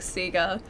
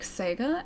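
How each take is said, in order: First: The first syllable does not sound like 'say'. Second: The first syllable sounds like a quick 'say'. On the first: The speaker calls it wrong. "I still can't change from like Sega. It's way too many years of that pronunciation" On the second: The speaker calls it right. "being pronounced like say, but very quick. G A being pronounced like ga. So it is actually like Sega as like the correct pronunciation"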